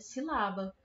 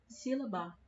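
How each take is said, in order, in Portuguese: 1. O acento está na segunda sílaba. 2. O acento está na terceira sílaba. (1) "se a sílaba tônica dessa palavra é o lá" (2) "Se a sílaba tônica dessa palavra for a ba"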